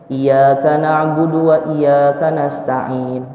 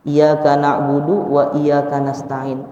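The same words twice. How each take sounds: First: The y sound in iyyaka is held doubled. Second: The y sound in iyyaka is short, single. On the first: Only You do we worship and ask for help. The speaker calls it right. "kan di situ ada tasydid di atas ya-nya. Tapi kita bacanya" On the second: Only the sun do we worship and ask for help. The speaker calls it wrong. "kalau ini enggak dibaca itu tasydid, berubahnya fatal"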